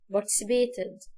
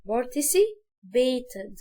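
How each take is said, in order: First: Said in the usual way. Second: Participated broken into slow parts; syllable by syllable. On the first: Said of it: "بعدين نقولها بسرعة". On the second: Shown as a demonstration. Teacher slowing down participated. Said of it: "نقول الحاجة مقاطع".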